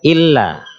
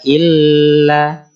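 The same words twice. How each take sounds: First: The doubled L is pressed briefly, not held. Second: The doubled L is held and lengthened. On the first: The speaker calls it right. "harus ditekan saja" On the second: The speaker calls it wrong. "kadang ada orang yang membaca"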